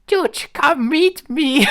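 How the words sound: It is said in a put-on woman's voice.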